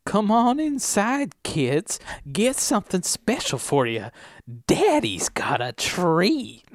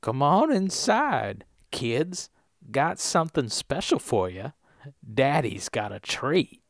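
First: High, drawn-out creepy invitation; creepy old man. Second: Put-on softer, slow old man's invitation; older, less creepy. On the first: Acted. Voice actor playing a creepy old man luring kids in, overdone creepy. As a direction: lay the creep on thick, slow and high. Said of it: "you gotta be slightly less creepy". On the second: Redoing the old man's line for the director, softer and older. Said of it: "I'll go more old".

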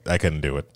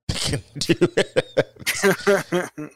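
First: Said in the usual way. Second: Much higher, drawn-out comic voice, breaking into laughter; high-pitched laughing repeat. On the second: Pretend. Co-host joking about giving up on a show, high laughing voice. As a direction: squeak it out slowly and laugh.

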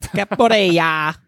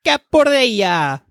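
First: Capoeira said slowly, syllable by syllable, as kap-o-EH-ra; drawn out carefully: Capoeira, each syllable clear; corrected pronunciation. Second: Capoeira said slowly and higher, stretched out as kap-o-EH-ra; a higher, drawn-out Capoeira with flourish; emphatic pronunciation. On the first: Fixing a mispronounced word for friends, slow and careful. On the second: Repeating the word for friends, slower and higher. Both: Shown as a demonstration. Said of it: "I fucked up".

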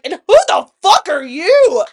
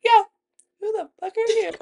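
First: Loud, raised, emphatic confrontation; retold furious challenge. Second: High, small backup voice; imitated sidekick echo. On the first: Storyteller re-enacting her challenge to homeboy, angrily loud. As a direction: turn on him in acted outrage. Retold turning on man who intervenes. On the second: Friend backing up her challenge, mimicked high and small. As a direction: mimic a meek friend chiming in.

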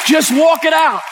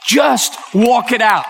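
First: High, strained emotional cry; real emotion spilling over in a high plea; overcome with emotion. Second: Slow, spaced-out urging; slow and deliberate, a little raised; emotional urging. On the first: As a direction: pitch leaps up, overcome. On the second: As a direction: urge them on word by word. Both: Real, not acted. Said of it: "didn't mean to get emotional".

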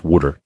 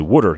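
First: "water" said wooder, Pennsylvania style, at a low pitch; Pennsylvania accent water. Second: "Water" with a Pennsylvania wooder sound, said lightly; a light Pennsylvania accent on "Water". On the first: Host recalling the roofer's speech, imitating his Pennsylvania accent. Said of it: "all I heard was". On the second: Roofer telling the host about the flashing, light Pennsylvania accent. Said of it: "And he'd say". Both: Retold or imitated.

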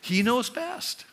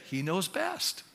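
First: Slow He knows best, lifted higher; slow affirmation. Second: Softer He knows best, said resignedly; meek surrender. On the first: Preacher voicing a believer, slowly and higher. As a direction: stretch it out with conviction. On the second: Preacher voicing a believer, softly. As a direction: give in quietly. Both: Shown as a demonstration. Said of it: "why don't we just say".

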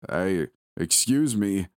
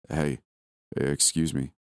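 First: A drawn-out, lurching call; bellowing. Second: Low, wobbly stranger's call; a low, unsteady call from a creepy stranger; deep wobbly voice. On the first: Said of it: "he would bellow in an unbalanced voice". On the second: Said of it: "his deep, wobbly voice call". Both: A narrator's reading.

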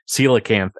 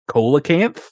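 First: Said in the usual way. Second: Coelacanth said as "KOH-luh-kanth", with a hard K; mispronounced coelacanth. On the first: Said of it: "they have his character pronounce". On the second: Retold or imitated. Podcaster quoting a character's funny mispronunciation, coelacanth as "KOH-luh-kanth". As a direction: start coelacanth with "cola" instead of "seela". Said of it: "they have his character pronounce, uh, coelacanth as".

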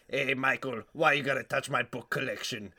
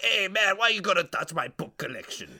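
First: Put-on voice of an aggrieved book collector; comic grumbling oddball; silly character voice. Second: High-pitched oddball yell; put-on voice of an angry book collector, raised high; yelling character. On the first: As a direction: complain in an odd character voice at your usual volume. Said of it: "this guy who talks like this". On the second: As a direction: accost a stranger in a silly character voice. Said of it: "he just starts yelling".

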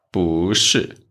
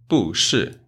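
First: 不 rising in second tone before falling 是. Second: 不 falling in fourth tone before 是, two falls; wrong fourth-tone 不. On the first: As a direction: let 不 climb, then drop on 是. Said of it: "it changed to second tone". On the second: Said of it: "it's wrong". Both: Shown as a demonstration.

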